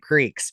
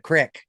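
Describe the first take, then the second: First: The vowel is a long 'ee' sound. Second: The vowel is a short 'i' sound.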